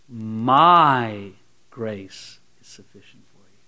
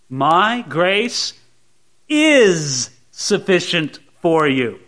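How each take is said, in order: First: The stress is on the word my. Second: The stress is on the word is.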